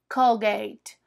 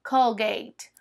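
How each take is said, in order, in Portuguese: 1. Tem pronúncia inglesa. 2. Tem pronúncia inglesa.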